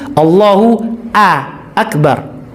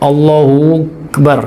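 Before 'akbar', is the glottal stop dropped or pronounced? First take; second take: pronounced; dropped. First: A clear glottal stop separates the two words. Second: The words run together without a glottal stop. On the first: The speaker calls it right. "Hamzah qata itu" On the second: The speaker calls it wrong. "Enggak boleh wasal. ... hamzahnya tidak terbaca"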